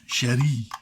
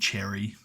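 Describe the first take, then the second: First: The name is said with a French-sounding accent. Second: The name is said with a plain English sound.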